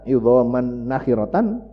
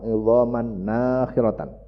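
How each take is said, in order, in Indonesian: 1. Vokal pertama dari nakhiratan itu pendek. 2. Vokal pertama dari nakhiratan itu panjang.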